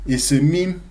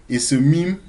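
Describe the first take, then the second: Both takes have the same delivery.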